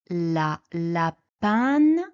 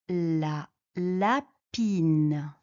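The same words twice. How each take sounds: First: The vowel keeps the masculine 'lapin' sound. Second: The vowel changes from the masculine 'lapin' sound. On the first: The speaker calls it wrong. "On ne dit pas la lapine" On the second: The speaker calls it right. "on dit la lapine"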